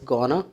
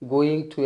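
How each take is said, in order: First: The words are blended into one reduced word. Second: Both words are said fully and separately.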